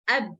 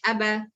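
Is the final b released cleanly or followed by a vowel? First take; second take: clean; vowel. First: The b stops short with a brief clean release. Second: The b is followed by an added vowel sound. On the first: The speaker calls it right. "same as the ba" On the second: The speaker calls it wrong. "Don't say abba"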